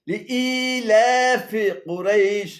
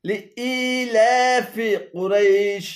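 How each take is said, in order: No difference in how they are said.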